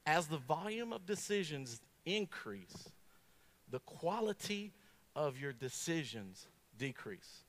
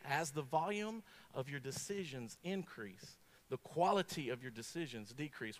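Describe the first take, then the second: First: Slow, weighty quote. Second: Slow repeat. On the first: Preacher slowly quoting the research to the congregation, deliberate. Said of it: "listen to this, this is it, ready?". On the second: Preacher repeating the research slowly to the congregation. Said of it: "I'm gonna repeat it again". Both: Shown as a demonstration.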